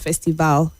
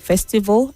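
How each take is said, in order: First: The final syllable has a full vowel. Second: The final syllable has a weak vowel. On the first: The speaker calls it wrong. "and not festival" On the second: The speaker calls it right. "The A L at the end has a weak sound"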